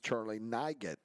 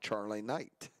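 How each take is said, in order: First: The surname sounds like 'Nyget'. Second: The surname sounds like 'Knight'. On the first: The speaker calls it right. "This is Charlie Nyget" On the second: The speaker calls it wrong. "I was mispronouncing Charlie's name"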